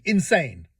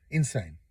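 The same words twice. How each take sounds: First: Said in the usual way. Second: Insane said again much lower and softer under the breath; a low, soft echo of Insane, as if to yourself; quiet repeat. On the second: Real, not acted. Repeats verdict, second time muttered.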